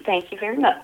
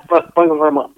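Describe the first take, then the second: First: Said in the usual way. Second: Lightly voiced rock-and-roll singer impression, lower; a playful hint of a famous crooner's thank-you. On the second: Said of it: "In my Elvis voice".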